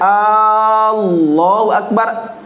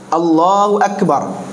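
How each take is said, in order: First: The opening vowel is drawn out long. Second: The opening vowel is short. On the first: It becomes a question asking whether God is greatest. The speaker calls it wrong. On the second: It is a statement that God is greatest. The speaker calls it right.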